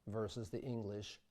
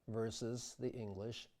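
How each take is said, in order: Both takes have the same delivery.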